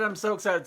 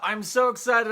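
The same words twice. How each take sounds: First: Said in the usual way. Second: High, bouncy with a lift on so; excited. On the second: Real, not acted. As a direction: gush about it.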